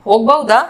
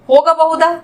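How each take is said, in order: First: ಹೋಗಬಹುದಾ contracted to "hogbauda"; lower-pitched ಹೋಗಬಹುದಾ, said hog-bau-da; colloquial short form. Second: Said in the usual way. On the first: Shown as a demonstration. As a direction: drop the a after the g in ಹೋಗಬಹುದಾ. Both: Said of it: "इसको बोलेंगे".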